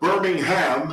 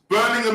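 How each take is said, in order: First: It is said with an American pronunciation. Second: It is said with a British pronunciation. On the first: It names the city in Alabama. "but Birmingham, Alabama" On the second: It names the city in England. "in England they don't say Birmingham. They say Birmingham"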